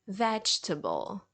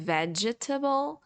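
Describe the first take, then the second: First: The middle e is silent, giving three syllables. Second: The middle e is sounded as a full vowel. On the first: The speaker calls it right. "but it's vegetable ... You just ignore this letter" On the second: The speaker calls it wrong. "instead of saying vegetable"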